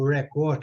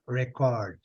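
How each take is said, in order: First: The stress is on the second syllable. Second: The stress is on the first syllable. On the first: It is the verb. "quando eu quiser falar o verbo record" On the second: It is the noun. "Quando ela é substantivo, a sílaba é, nesse caso aqui, é a primeira. Rec, record"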